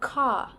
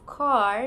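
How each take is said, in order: First: The final R sound is not pronounced. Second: The final R sound is clearly pronounced. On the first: "British pronounce it as car" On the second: "car in American"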